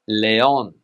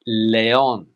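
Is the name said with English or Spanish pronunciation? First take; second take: Spanish; Spanish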